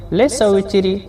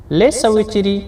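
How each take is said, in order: Both takes have the same delivery.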